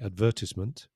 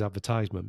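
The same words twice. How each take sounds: First: The word does not keep the sound of 'advertise'. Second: The word keeps the sound of 'advertise'. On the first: "Some people say advertisement, like me" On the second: "because the verb is to advertise... it's the same pronunciation"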